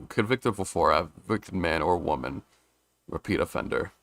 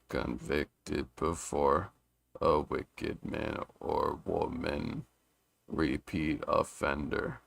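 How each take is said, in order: First: Said in the usual way. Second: Very slow, soft, measured reading; slow syllable counting. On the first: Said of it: "reading it like this normally". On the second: Shown as a demonstration. Reader testing the haiku's five seven five, slow and measured. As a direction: spell out each syllable slowly, quietly.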